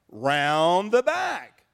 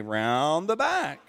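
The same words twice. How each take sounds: First: Slow, blunt brush-off; gruff innkeeper dismissal, drawn out; curt innkeeper. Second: Put-on slow demo line, said for the kids to copy; slow, blunt demo of the brush-off; curt innkeeper line for kids to repeat. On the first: Acted. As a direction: send them away slowly and flatly. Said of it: "And he said". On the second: Shown as a demonstration. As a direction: model it slowly so they echo it.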